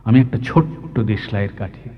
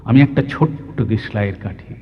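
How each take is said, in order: Both takes have the same delivery.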